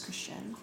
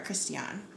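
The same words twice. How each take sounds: First: The name is said with English pronunciation. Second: The name is said with French pronunciation.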